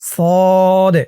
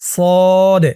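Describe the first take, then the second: Both takes have the same delivery.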